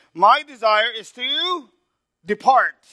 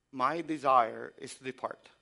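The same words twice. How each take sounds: First: Drawn out high and loud, slow; preached verse. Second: Said in the usual way. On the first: Shown as a demonstration. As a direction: lift the verse like a proclamation. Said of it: "I want you to see this". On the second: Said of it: "would you say that about yourself".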